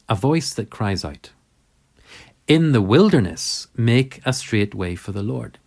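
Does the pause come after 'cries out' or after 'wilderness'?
after cries out. The pause comes after the words cries out. The straight way is made in the wilderness. "in the prophet Isaiah, that's exactly how we read it"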